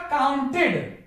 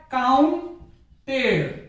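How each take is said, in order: First: काउंटेड ending in a short "id" sound; right pronunciation, ending "id". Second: काउंटेड stretched out very slowly, the wrong way; wrong pronunciation, slow. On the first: Teacher gives students the correct form, ending "id". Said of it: "उच्चारण क्या होगा इसका?". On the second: Teacher mocks the dictionary-style mistake, very slowly. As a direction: drag out काउंटेड as the mistaken form. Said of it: "जो कि गलत है।". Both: Shown as a demonstration.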